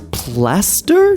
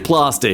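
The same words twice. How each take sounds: First: The word is said in a neutral American accent. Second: The word is said in an Australian accent. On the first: "speaking in a more neutral, almost American slash Australian accent as I read these" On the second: "I want to say plaster because of my Australian roots. So I'm going to say plaster here"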